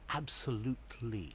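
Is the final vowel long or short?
long. The final vowel is held long. The speaker calls it wrong. "In posh English, we don't go absolutely"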